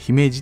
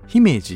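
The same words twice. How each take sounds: First: It uses the pitch pattern locals reportedly use. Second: It uses the commonly heard pitch pattern. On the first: This is how people from the area say it. "でも地元の人は姫路っていうらしい" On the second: This is how most people say it. "姫路っていう風に言うじゃないですか"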